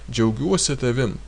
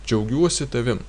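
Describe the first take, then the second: No difference in how they are said.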